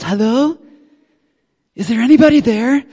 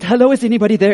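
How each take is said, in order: First: There is a pause after hello. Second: It is said without a pause after hello.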